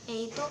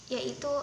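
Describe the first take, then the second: No difference in how they are said.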